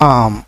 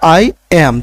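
First: It is said as one short syllable, 'am'. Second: It is said as two separate words. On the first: "সরাসরি আম বলে দেই" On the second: "আগে আমরা কি বলতাম যে আই এবং অ্যাম বলতাম"

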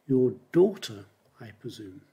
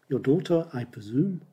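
First: The stress falls on the word daughter. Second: The stress falls on the words I presume. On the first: It is your daughter, not your sister or mother. "So you put the stress on daughter" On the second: It is just a simple guess. "And there you put the stress on, I presume"

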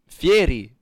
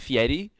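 First: The middle consonant sounds like an R. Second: The middle consonant sounds like a D. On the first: The speaker calls it right. "I'm Italian. It's Fieri" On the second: The speaker calls it wrong. "He says it with a D"

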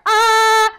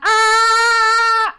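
First: The sound is full and supported from below. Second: The sound is pushed from the throat, strained. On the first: The speaker calls it right. "that's gonna be more from right there" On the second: The speaker calls it wrong. "where it's coming from my vocal cords"

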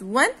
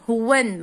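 First: No h sound is heard before the w. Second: An h sound is breathed before the w. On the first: The speaker calls it right. "It's when and the H is silent" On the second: The speaker calls it wrong. "Don't pronounce it as when, هتبقى wrong"

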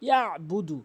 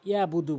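First: A pressed throat consonant comes before the b. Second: There is no throat consonant before the b. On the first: The speaker calls it right. "আইনের উচ্চারণ হলকের মাঝখান থেকে চাপ দিয়ে" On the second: The speaker calls it wrong. "অনেকেই আইনের উচ্চারণ করেই না"

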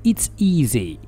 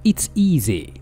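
No difference in how they are said.

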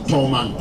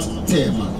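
First: The first syllable is said as 'Tol'. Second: The first syllable is said as 'Te'. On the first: This is the original local name. The speaker calls it right. "We still tell people the name is Tolman" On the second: This is how newcomers mispronounced the name. The speaker calls it wrong. "not Tehman"

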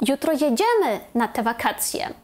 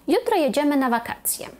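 First: The stress falls on the second word. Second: The stress falls on the last word. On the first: We really are going on that holiday. "якщо ми хочемо підкреслити слово «jedziemy»" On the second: It is a calm, neutral statement. "якщо ми кажемо спокійно ... ми трішечки змістили наголос на кінець речення"

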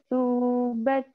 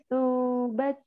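No difference in how they are said.

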